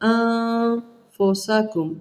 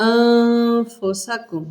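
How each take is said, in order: First: The n is hidden as a nasal sound. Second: The n is hidden as a nasal sound.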